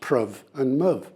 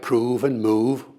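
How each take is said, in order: First: The vowel is short, as in 'love'. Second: The vowel is long, as in 'food'. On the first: This is the original pronunciation of Shakespeare's time. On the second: This is the modern pronunciation.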